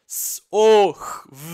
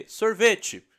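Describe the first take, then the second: First: "S-O-R-V-E-T-E" soletrado bem alto, som por som; soletrando os sons. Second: Said in the usual way. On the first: Shown as a demonstration. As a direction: separe cada som de "S-O-R-V-E-T-E". (soletração sonora de "S-O-R-V-E-T-E") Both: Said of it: "Palavra uva".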